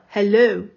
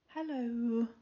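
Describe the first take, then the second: First: It is said with more energy and force. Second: It is said weakly, with little energy.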